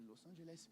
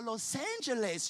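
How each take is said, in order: First: Very soft French-style "Los Angeles"; French-accented attempt. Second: Slow, higher, drawn-out "Los Angeles"; exaggerated pronunciation. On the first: Preacher re-enacts his attempt, soft French-accented "Los Angeles". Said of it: "Je dis Los Angeles". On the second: Preacher re-enacts finding the word, drawn-out "Los Angeles". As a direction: stretch out "Los Angeles", sounding it slowly. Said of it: "Je dis, ah".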